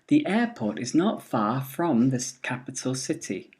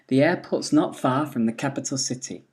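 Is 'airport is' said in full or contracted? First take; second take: full; contracted. First: The word 'is' is said in full. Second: The word 'is' is contracted onto 'airport'.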